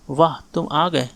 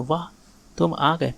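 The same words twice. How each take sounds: First: Said in the usual way. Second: "वाह" set apart by a pause before "तुम आ गए"; exclamatory वाह. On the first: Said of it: "नहीं ये नहीं". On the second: Shown as a demonstration. Teacher showing an exclamation mark, pausing after "वाह". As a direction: let "वाह" stand alone as an exclamation, then "तुम आ गए". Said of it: "वाह मतलब exclamatory की बात".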